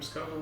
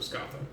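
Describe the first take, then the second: First: The middle consonant is a plain h sound. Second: The middle consonant is a th sound. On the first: This is how the name is said today. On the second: This is the older Old Irish pronunciation.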